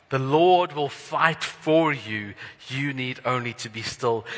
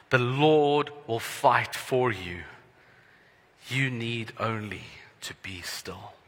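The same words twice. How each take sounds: First: Slow, louder, ringing declaration; louder slow proclamation. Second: Slow, weighty words fading to a whisper; slow emphatic reading. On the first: Preacher repeats verse fourteen, proclaiming it louder. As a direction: proclaim it boldly and slowly. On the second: Preacher reads verse fourteen slowly, ending in a hush. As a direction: read it slowly, let the end fall to a hush. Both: Shown as a demonstration. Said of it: "something I would like us to hold on to".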